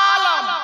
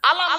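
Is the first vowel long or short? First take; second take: long; short. First: The first vowel is drawn out long. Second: The first vowel is short. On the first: It means world. "আতে টান হবে" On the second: It means flag. "আলাম মানে পতাকা"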